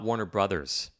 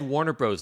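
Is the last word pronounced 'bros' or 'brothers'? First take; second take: brothers; bros. First: The last word is pronounced as the full word. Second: The last word is pronounced as one short syllable. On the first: The speaker calls it right. "not Warner Brothers" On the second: The speaker calls it wrong. "He said Warner Bros"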